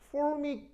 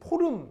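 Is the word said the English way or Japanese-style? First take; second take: English; Japanese-style. First: It is said with English sounds, 'formic'. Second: It is said Japanese-style, as 'poreum'. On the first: The speaker calls it right. "formic 이런 발음" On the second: The speaker calls it wrong. "걔들이 포름 이렇게 하는 거"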